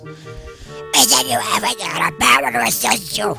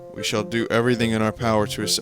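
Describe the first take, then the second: First: It is read in a put-on bird voice. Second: It is read in a normal, non-bird voice.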